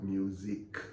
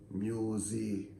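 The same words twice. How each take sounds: First: The end of the word is clearly pronounced. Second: The end of the word is cut off. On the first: The speaker calls it right. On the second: The speaker calls it wrong.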